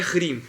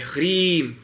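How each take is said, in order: First: The vowel is said short. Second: The vowel is held long. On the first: The speaker calls it wrong. "não é rim" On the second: The speaker calls it right. "Quando você vê esse risquinho do I, ... é rim"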